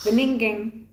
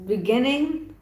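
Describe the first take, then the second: First: Beninging said as be-NING-ging with an extra ng; meme mispronunciation. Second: Beginning said correctly as bi-GIN-ing. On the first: Retold or imitated. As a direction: mangle beginning into Beninging. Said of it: "In the Beninging". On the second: Shown as a demonstration. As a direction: say beginning with the normal g.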